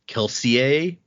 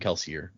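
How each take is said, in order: First: The name is pronounced in a French way. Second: The name is pronounced in an English way. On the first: This is the technically correct form. "the technical correct pronunciation of the names is more French" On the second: This is how everyone usually says it. "no one says it like that. Even Brandon in interviews and stuff calls him Kelsier"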